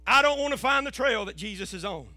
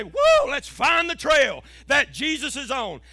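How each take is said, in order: First: Said in the usual way. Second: Drawn-out whoa, then a rousing pulpit cry; rally the church like a showy preacher; hyped-up preaching. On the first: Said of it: "I want to be honest with you". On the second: Acted. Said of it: "makes good preaching to get up here and say".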